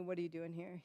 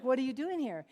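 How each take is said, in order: First: Soft, lower-key repeat of the question; controlled questioning. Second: Higher, forceful retold demand; confronting demand. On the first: Retold or imitated. Woman asking the surgeon once more, quietly controlled. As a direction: ask it quietly, holding back. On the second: Woman grabbing the surgeon in a drug house, confronting him. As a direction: demand an answer as you grab him. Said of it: "I just grabbed him".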